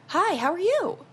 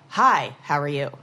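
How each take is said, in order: First: The voice rises at the end. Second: The voice falls at the end. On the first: The speaker is asking a question. "you ask as a question when you go up at the end" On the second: The speaker is telling rather than asking. "If you're a male"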